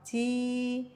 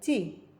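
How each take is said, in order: First: The vowel is drawn out long. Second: The vowel is short and clipped. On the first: "maka dibaca jadi panjang" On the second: "jadi bacanya pendek"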